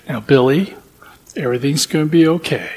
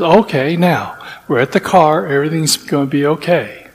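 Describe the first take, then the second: First: Put-on soft, patient reassurance to a child; calm him down gently, a touch quieter; lightly voiced patient father; patient soothing. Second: Soft, steady reassurance under pressure; a hint of a frazzled father keeping calm; calm soothing. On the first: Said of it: "this father being so patient". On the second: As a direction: talk yourself down gently, a touch quieter. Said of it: "so calm through all of this".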